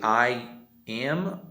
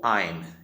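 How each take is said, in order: First: It is said in full as two syllables. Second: It is contracted into a single syllable. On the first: "É mais fácil dizer I am ou I'm" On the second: "A forma contraída ou reduzida"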